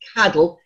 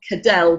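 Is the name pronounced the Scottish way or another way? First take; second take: Scottish; another way. First: The name is said the Scottish way. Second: The name is said in a non-Scottish way. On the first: The speaker calls it right. "but Cadell in the Scottish" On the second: The speaker calls it wrong. "You pronounce it not Cadell"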